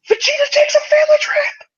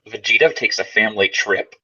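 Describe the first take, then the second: First: It sounds like an excited exclamation. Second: It sounds like a questioning, rising line.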